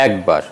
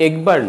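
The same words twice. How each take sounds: First: একবার starting with open "ae"; একবার with "ae" as in "cat"; open initial vowel. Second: একবার starting with closed "e"; closed initial vowel. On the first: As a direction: say একবার as "aekbar". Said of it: "হবে". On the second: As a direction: say একবার as "ekbar". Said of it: "নয়". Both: Shown as a demonstration.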